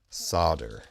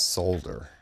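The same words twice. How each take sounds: First: The L sound is left out. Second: The L sound is clearly pronounced. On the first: The speaker calls it wrong. "not solder" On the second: The speaker calls it right. "the correct pronunciation is solder ... There is an L there"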